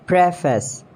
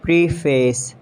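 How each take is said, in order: First: "Preface" as PREF-us; short E in "Preface"; British pronunciation. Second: "Preface" as PREE-face; long E in "Preface"; mispronounced preface. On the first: Shown as a demonstration. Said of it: "exact pronunciation according to the British". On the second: Acted. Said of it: "you have to correct me".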